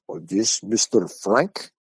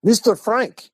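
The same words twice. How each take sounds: First: Slow, drawn-out caller asking for someone; caller checking a name. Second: High-pitched caller trying once more; insistent caller. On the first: Caller phones the teller at home, slow inquiry. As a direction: stretch the name into a careful question. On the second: Caller phones back after a hang-up, high insistent query. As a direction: pitch the name up sharply, pressing for an answer. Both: Retold or imitated.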